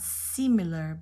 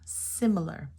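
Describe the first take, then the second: First: The first vowel is a long E sound. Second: The first vowel is a short I sound. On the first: The speaker calls it wrong. "not similar" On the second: The speaker calls it right. "You get the short I"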